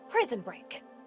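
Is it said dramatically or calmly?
calmly. It is said calmly and evenly.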